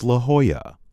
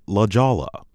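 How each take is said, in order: First: La Jolla the Spanish way, "luh HOY-uh"; correct pronunciation. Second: La Jolla with an English J, "luh JOLL-uh"; common mispronunciation. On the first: Narrator correcting a common mistake in the town's name, correct pronunciation. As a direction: say La Jolla with H for J and Y for the double L. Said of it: "but the correct pronunciation". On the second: Narrator showing how the town is commonly mispronounced, mispronunciation. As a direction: say La Jolla as spelled, hard J and sounded L. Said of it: "is commonly mispronounced". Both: Shown as a demonstration.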